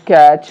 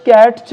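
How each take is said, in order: First: "ক্যাচ" with no t before ch; silent t. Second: "ক্যাটচ" with the t sounded; "ক্যাটচ" said as "kat-ch"; wrong pronunciation. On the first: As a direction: say "ক্যাচ" as "kach". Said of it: "টি silent". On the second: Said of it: "ক্যাটচ বলবো না". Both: Shown as a demonstration.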